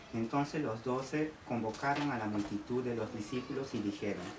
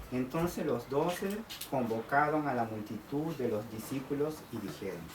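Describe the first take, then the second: No difference in how they are said.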